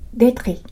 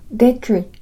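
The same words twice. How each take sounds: First: The r is a trill at the back of the throat. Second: The r is made with a curled tongue tip. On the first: "喉の奥を震わせる音が来ると" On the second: "舌の先を丸めて上顎の歯茎に近づける音を使うと"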